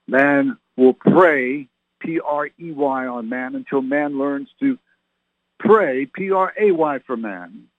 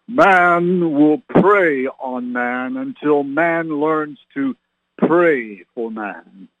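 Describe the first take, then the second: First: Prey and pray each stressed, spoken slowly; explaining the pun. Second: Slow, solemn voice of God. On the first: Shown as a demonstration. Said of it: "Did you get it?". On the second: Retold or imitated. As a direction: intone it slowly like God speaking. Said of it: "gonna use my best God voice here".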